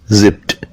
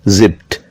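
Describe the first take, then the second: No difference in how they are said.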